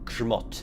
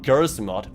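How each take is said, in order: First: The opening consonants run together without a vowel. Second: A vowel is inserted after the first consonant. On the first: The speaker calls it right. "It's Grzmot" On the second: The speaker calls it wrong. "It's not Gersmot, as I hear all the casters pronounce"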